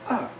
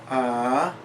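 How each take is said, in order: First: The pitch drops sharply from high. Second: The pitch rises from middle to high. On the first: "a falling tone" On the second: "a rising tone"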